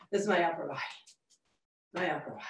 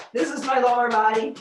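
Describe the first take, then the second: First: Much softer, fading away; quiet, lifted tone trailing off; softer upper body voice. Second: Louder, full and grounded; confident, grounded tone; grounded lower body voice. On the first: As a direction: let it float off lightly and quietly. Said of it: "that sure feels a lot better". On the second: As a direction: plant the voice in the feet, louder. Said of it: "Ah, better". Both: Shown as a demonstration.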